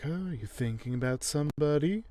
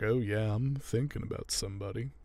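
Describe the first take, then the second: First: Higher, questioning lilt imitating her; retold flirty woman. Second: Softer, level-pitched imitation of him; retold oblivious man. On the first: Neely hinting to Alan she hopes it's her, mock coy. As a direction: play her fishing coyly for a name. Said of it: "she's like". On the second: Alan answering Neely's hopeful question, mildly oblivious. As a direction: play him lightly, missing her hint. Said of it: "and he's like".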